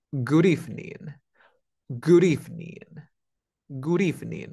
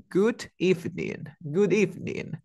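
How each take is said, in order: First: "Good evening" linked, D tapped like R. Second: "Good evening" higher, with a full D in "Good"; unlinked D. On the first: Teacher applying the trick to "Good evening", D as R. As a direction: run "Good evening" together as "gurívning". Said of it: "La D entre dos sonidos vocálicos suena como R". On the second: Teacher giving "Good evening" before the trick, full D. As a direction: keep a solid D before "evening", no tap. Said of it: "Pero ¿qué es lo que pasa? Aplico truco". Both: Shown as a demonstration.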